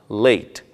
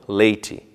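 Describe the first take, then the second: First: The word ends on its final consonant sound. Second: An extra 'ee' vowel follows the final consonant. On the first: The speaker calls it right. "Não se pronuncia o som do I no final" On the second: The speaker calls it wrong. "e não"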